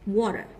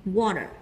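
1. Chữ t ở giữa nghe như âm d mềm. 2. Chữ t ở giữa nghe như âm d mềm.

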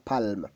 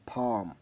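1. Le son L est clairement prononcé. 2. Le son L est silencieux. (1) "on ne dit pas palme" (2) "On dit palm, ... Le L, il est silencieux"

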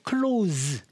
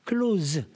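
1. 이 단어는 윙윙거리는 z 소리로 끝나요. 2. 이 단어는 윙윙거리는 z 소리로 끝나요.

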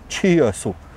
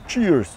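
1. Произносится с лишними гласными, с китайским акцентом. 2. Это произносится как обычное английское слово.

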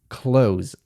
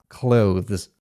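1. Słowo brzmi dokładnie jak 'close', bez 'th'. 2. Słowo zachowuje dźwięk 'th' przed końcowym s. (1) "tą łatwiejszą i poprawną, w pełni poprawną wersję" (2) "alternatywna wymowa słowa close... zbyt trudna... taki tongue twister"

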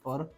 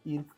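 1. स्वर 'er'-सारखा आवाज आहे. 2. स्वर 'ee'-सारखा आवाज आहे. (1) "तो अर्क असा आहे" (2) "बरेच मुलं त्याला इर्क असं म्हणतात"

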